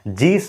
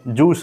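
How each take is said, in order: First: The vowel sounds like 'ee'. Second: The vowel sounds like 'oo'. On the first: The speaker calls it wrong. "जीस नहीं बोलेंगे" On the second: The speaker calls it right. "जूस बोलेंगे"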